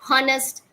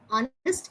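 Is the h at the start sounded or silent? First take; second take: sounded; silent. First: The word starts with a sounded h. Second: The word starts without an h sound. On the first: The speaker calls it wrong. "put stress on that H. They say honest" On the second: The speaker calls it right. "H is silent"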